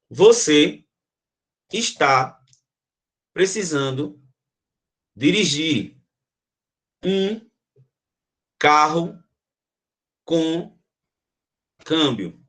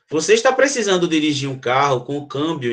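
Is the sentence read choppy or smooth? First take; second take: choppy; smooth. First: There is a strong pause after every word. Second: The words flow together without any pauses. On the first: It feels like a rough gear change you can feel. "desse uma pausa forte" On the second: It feels like a gear change you do not notice. "outro direto"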